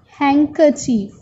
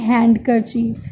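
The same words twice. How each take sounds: First: The d in the middle is not pronounced. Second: The d in the middle is pronounced. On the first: The speaker calls it right. "D is silent here. So we say handkerchief" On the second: The speaker calls it wrong. "We never say handkerchief"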